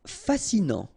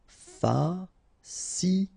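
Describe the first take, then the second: First: Said in the usual way. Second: Very slow "fascinant", fa-sci-nant; syllable by syllable. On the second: Shown as a demonstration. French teacher modelling for learners, "fascinant" slowly syllable by syllable. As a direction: pause between each syllable of "fascinant".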